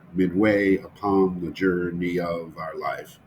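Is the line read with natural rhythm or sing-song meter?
sing-song. It is read with a heavy, regular metrical beat.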